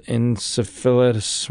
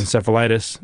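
First: "encephalitis" stumbled as en-se-fil-uh-us; mispronounced encephalitis. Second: "encephalitis" said properly as en-sef-uh-LIE-tis; "encephalitis" with a clear -LIE- syllable; corrected encephalitis. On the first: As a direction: slur "encephalitis" without the -lie- syllable. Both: Real, not acted.

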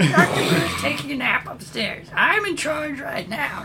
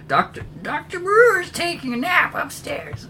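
First: Put-on very high, thin old lady voice; sweet old lady. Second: Put-on very high, thin old lady voice; high old woman voice. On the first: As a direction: speak like a frail little granny. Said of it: "she explains". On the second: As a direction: squeak it out like a frail old woman. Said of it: "kind of moves away and says".

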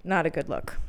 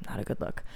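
First: Said in the usual way. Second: Breathy whispered repeat; a whispered aside echoing "Not a good look". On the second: Real, not acted. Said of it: "repeated whisper".

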